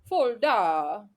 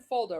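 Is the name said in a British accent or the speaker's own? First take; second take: British; own. First: It is said in a British GPS-style accent. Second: It is said in the speaker's own accent.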